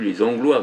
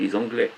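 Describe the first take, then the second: First: The last vowel sounds like 'wa', as in loi. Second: The last vowel sounds like 'eh'. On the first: This is the old way of saying it. "on ne dit plus les Anglois" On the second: This is the modern way of saying it. "maintenant on dit les Anglais"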